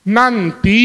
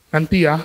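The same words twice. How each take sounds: First: Put-on curt, clipped-off "Nanti." to the child; irritated reply. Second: Said in the usual way. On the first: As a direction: shut the nagging down, losing patience. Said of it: "Nah, mulai".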